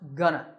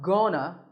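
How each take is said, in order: First: The first vowel is a short, reduced sound. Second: The first vowel is a full, clear sound. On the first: The speaker calls it right. "it's pronounced gonna" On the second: The speaker calls it wrong. "it's not gonna"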